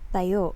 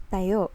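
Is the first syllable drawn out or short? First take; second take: short; short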